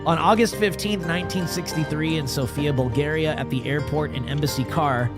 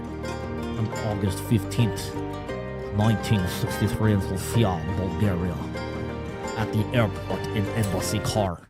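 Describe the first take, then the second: First: It is read in the speaker's ordinary accent. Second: It is read in a put-on Russian accent.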